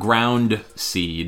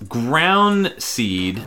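First: It is said with a 'd' before 'seed'. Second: It is said without a 'd' before 'seed'. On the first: The speaker calls it wrong. "not Ground Seed. No D" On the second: The speaker calls it right. "that was Ground Seed"

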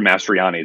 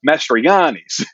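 First: The name is said with an American pronunciation. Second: The name is said with an Italian pronunciation.

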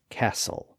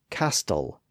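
First: The T sound in the middle is silent. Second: The T sound in the middle is pronounced. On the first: This is how it is said today. "it's almost always silent in Standard English" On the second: This is how it was said in the Elizabethan period. "the T was still being pronounced"

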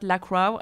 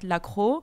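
First: The name is said with an English-style pronunciation. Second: The name is said with a French pronunciation. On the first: This is how the listener says it. "You pronounce that Lacroix" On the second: This is how the speaker says it. "I pronounce that Lacroix"

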